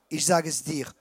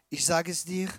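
The two takes are said the same way.

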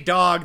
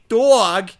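First: The word is said in a plain accent. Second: The word is said in an odd put-on accent. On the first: This is the ordinary way to say it. "don't say dog" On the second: This is how the landlords say it. "they say dog"

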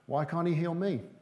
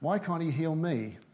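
First: The question sounds hopeful and confident. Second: The question sounds bitter and complaining. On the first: Healing is expected for the asker too. The speaker calls it right. "The second one is an attitude of faith" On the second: Healing seems to be withheld from the asker. The speaker calls it wrong. "We want to change our attitude from"

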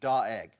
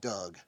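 First: The name is said as Doeg. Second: The name is said like the name Doug. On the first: "That's how you pronounce his name" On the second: "I'm going to call him Doug"

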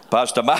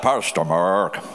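First: It is said in an Asian accent. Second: It is said in an American accent.

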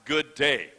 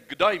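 First: It is said without an imitated Australian accent. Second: It is said with an imitated Australian accent. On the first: It is the speaker's own tagline. "not good day" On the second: It imitates a film character's greeting. "If I was imitating Paul Hogan, I would say"

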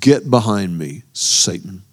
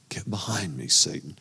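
First: It is spat out as a forceful command. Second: It is said casually, without force.

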